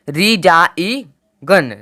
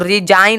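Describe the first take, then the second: First: The g is pronounced before the n. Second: The g is silent before the n. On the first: The speaker calls it wrong. "ना कि रिजाई गन, रिजाई गन नहीं आया" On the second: The speaker calls it right. "रिजाइन आया है"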